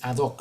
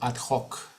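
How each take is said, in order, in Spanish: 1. La h en hoc es muda. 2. La h en hoc suena como una j gutural. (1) "no es ad hoc" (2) "La H se pronuncia como una J"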